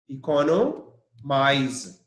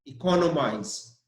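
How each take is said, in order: First: Economize slowly, co stressed. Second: Said in the usual way. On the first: Shown as a demonstration. Teacher spells then models the verb slowly. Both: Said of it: "the stress is on C O".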